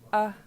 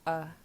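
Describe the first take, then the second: First: The vowel is said on a high pitch. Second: The vowel is said on a low pitch. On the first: "tone mark above the A on the second one lets you know it's high tone" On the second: "just an A is low tone"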